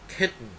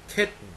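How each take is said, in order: Both takes have the same delivery.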